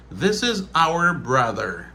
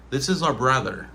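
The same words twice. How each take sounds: First: "our" as ow-er, slowly; slow, careful, unreduced "our"; full pronunciation. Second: "our" said like the letter R; casual one-syllable "our"; reduced form. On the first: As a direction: articulate "our" in two sounds. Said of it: "c'est prononciation normale". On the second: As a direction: flatten "our" to ar. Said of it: "on dit R". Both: Shown as a demonstration.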